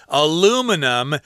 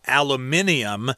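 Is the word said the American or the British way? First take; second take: American; British. First: It is said the American way, aluminum. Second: It is said the British way, aluminium.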